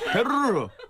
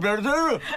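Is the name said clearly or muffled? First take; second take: muffled; clearly. First: The name is muffled, with the ending swallowed. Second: The name is said in a clear, pure voice.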